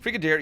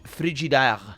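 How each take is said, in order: First: The name is said in a plain English way. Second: The name is said in a French way. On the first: The speaker calls it wrong. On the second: The speaker calls it right.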